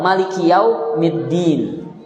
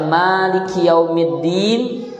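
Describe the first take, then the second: First: The vowel after the first M is short. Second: The vowel after the first M is long. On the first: "atau pendek" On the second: "Bisa dibaca panjang"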